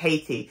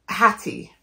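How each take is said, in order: First: The name is said with a long 'ay' vowel. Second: The name is said with a short 'a' vowel. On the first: The speaker calls it wrong. "but I'm saying it Haiti" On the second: The speaker calls it right. "I think her name's Hattie"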